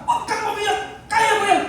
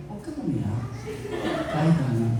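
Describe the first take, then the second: First: Laughing, brash, higher "Huwag kang umiyak"; tough-love pep talk. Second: Much lower and softer "Huwag kang umiyak", tender; gentle try. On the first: Pastor showing his usual blunt way with his kids, brash and laughing. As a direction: toss it off like a tough dad who won't coddle. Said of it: "ganun lang ako eh". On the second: Pastor trying the gentle style his wife suggested, hushed and tender. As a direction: try the sweet motherly version, hushed. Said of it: "Jai, ganun". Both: Shown as a demonstration.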